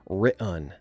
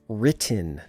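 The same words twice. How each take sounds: First: The middle T becomes a glottal stop. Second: The middle T is clearly pronounced. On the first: "not written" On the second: "written with two T's"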